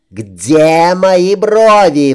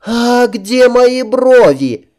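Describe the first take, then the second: First: Slow, loud high bellow; roaring. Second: High, slow shocked princess voice; cartoon princess. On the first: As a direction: roar like her father. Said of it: "взревела под стать своему отцу Катрин". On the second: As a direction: wail like a spoiled princess. Princess finds missing eyebrows. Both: A narrator's reading.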